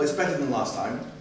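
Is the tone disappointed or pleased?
disappointed. The voice sounds flat and disappointed. The student wonders what they did wrong. The speaker calls it wrong.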